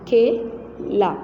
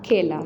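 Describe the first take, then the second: First: खेला drawn out very slowly, ए long and heavy; heavy ए sound. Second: Said in the usual way. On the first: Shown as a demonstration. Teacher to pupils, drawn-out heavy ए in खेला. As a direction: stretch खेला, making the ए weighty. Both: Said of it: "बड़ी ए में भारी आवाज़".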